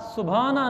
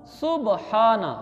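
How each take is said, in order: First: सुभाना run together with bh; wrong pronunciation. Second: सुबहाना slowly, ब and ह apart; correct pronunciation. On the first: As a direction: say सुभाना as su-bhaa-na. (सुभाना, ब-ह मिलाकर भ) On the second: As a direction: draw out सुबहाना as su-ba-haa-na. (सुबहाना, ठहर कर, ह अलग) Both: Shown as a demonstration. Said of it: "सुभाना नहीं".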